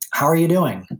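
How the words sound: It is said earnestly, as a caring question. It is a real question inviting a deeper answer. "And you know that means something different. Same words, slightly different inflection"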